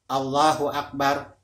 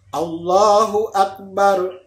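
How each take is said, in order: First: It is said lightly from the mouth. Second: It is pressed out deeply from the chest. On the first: The words are felt as separate. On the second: The words are felt as one unit. "Selalu ada tekanan. Ya, di dalam dada"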